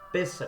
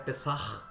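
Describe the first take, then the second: First: The word ends on a plain open vowel. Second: The word ends with a throaty h sound. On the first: The speaker calls it wrong. "como muitos chamam" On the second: The speaker calls it right. "a pronúncia correta é Pessah"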